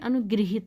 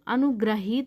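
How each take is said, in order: First: The middle syllable is pronounced 'gri'. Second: The middle syllable is pronounced 'gra'. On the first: The speaker calls it right. "इसमें री की मात्रा लगेगा" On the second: The speaker calls it wrong. "अनुग्रहित नहीं"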